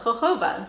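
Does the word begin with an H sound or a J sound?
H sound. It starts with an H-like sound.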